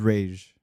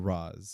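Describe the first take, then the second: First: The name sounds like the word 'rage'. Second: The name sounds like 'roz', ending in z. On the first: The speaker calls it right. "the correct is Rage" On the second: The speaker calls it wrong. "Batman Begins that changed it to Raz"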